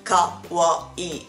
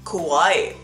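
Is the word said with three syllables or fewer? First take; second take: three; fewer. First: The word is said with three distinct syllables. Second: The word is said with fewer than three syllables. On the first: The speaker calls it right. "it's better to pronounce it kawaii. It's 3 syllables" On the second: The speaker calls it wrong. "you pronounce it kawaii in a so weird way"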